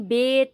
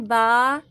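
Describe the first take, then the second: First: The letter name ends in an e vowel. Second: The letter name ends in an a vowel. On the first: It follows Urdu pronunciation. The speaker calls it wrong. "Urdu तलफ़्फ़ुज़ से परहेज़ करें ... इस तरह से हमें नहीं पढ़ना है" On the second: It follows Arabic pronunciation. The speaker calls it right. "हमें पढ़ना है"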